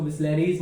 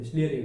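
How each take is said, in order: First: Bisleris with an extra z sound at the end; wrong plural brand. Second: Said in the usual way. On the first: Shown as a demonstration. Teacher showing what not to call the bottle, Bisleris ending in s. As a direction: add a plural s to make Bisleris. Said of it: "नहीं बोलेंगे". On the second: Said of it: "Bisleri होता है".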